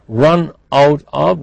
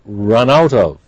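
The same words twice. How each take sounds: First: The words are said separately. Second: The words are linked into one unit. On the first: The speaker calls it wrong. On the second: The speaker calls it right. "This read as one unit"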